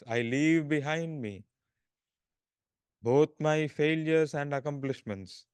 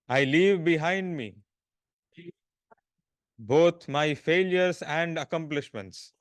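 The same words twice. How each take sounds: First: It is spoken in a softer, quieter voice. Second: It is spoken in a loud, full voice. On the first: "in a slightly lower voice" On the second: "in a loud voice"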